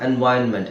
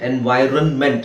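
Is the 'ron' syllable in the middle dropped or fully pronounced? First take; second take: dropped; fully pronounced. First: The middle 'ron' syllable is dropped. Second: The middle 'ron' syllable is fully pronounced. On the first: The speaker calls it right. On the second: The speaker calls it wrong. "ಅಲ್ಲ"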